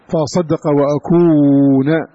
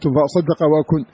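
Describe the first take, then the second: First: The last word ends in a vowel. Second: The last word ends in a consonant. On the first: This is one named reciter's reading. "لكن قراءة أبي عمرو" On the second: This follows the written text of the copies. "هكذا مرسومة"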